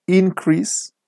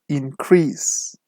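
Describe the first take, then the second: First: INcrease, pitched high on the first syllable; noun stress. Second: InCREASE, second syllable long and slow; verb stress. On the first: Teacher shows students the noun form, stress on IN in "Increase". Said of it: "the stress is on the first syllable". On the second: Teacher shows students the verb form, slow stress on CREASE in "increase". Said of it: "the stress is on the second syllable". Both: Shown as a demonstration.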